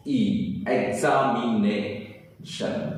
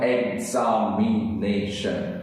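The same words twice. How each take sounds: First: एग्जामिनेशन stretched very slowly, syllables apart; slow syllable demo. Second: एग्जामिनेशन very slow, each syllable clear; slow syllable demo. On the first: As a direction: draw out एग्जामिनेशन piece by piece. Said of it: "किस तरह से हम करेंगे". (बहुत धीरे एग्जामिनेशन) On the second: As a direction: count out एग्जामिनेशन slowly. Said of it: "क्या हो गया?". (धीरे-धीरे एग्जामिनेशन) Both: Shown as a demonstration.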